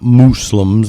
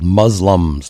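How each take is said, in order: First: The first syllable sounds like 'moose'. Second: The first syllable does not sound like 'moose'. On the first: The speaker calls it wrong. "They're not mooses" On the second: The speaker calls it right. "they're called Muslims"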